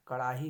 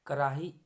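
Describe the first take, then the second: First: Said in the usual way. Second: कराही said loudly with plain r; loud 'ka-raa-hee' for कराही; r for flap. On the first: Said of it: "होता है". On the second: Shown as a demonstration. Teacher showing a mistake, कराही with simple r. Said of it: "कड़ाही होता है".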